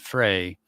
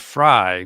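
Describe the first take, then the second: First: The vowel sounds like the one in 'day'. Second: The vowel sounds like the one in 'eye'. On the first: The speaker calls it wrong. "not Frey" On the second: The speaker calls it right. "So it's Amber Fry"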